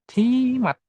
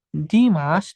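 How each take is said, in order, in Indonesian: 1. Nama itu diakhiri dengan bunyi t. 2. Nama itu diakhiri dengan bunyi s. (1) "Tapi Dimat" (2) "dibacanya bukan Dimas"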